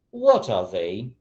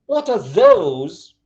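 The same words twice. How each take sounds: First: Said in the usual way. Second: THOSE high, loud and stretched; emphasis on THOSE. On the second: Shown as a demonstration. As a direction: punch a long, high THOSE. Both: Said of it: "changing intonation and changing a bit, uh, the emphasis".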